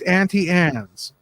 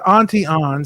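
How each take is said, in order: First: The second word is said like 'Anne's'. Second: The second word is said like 'Ons'. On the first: It is the usual pronunciation of the name. The speaker calls it right. "it's Auntie Anne's" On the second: It imitates a deliberate mispronunciation. The speaker calls it wrong. "It's not Auntie Ons"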